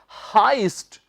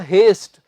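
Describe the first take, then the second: First: The vowel sounds like 'eye' in 'high'. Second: The vowel sounds like 'ay' in 'hay'. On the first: The speaker calls it right. "इसका सही उच्चारण क्या है? हाइस्ट" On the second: The speaker calls it wrong. "आपको शायद लगे कि यह होगा हेस्ट"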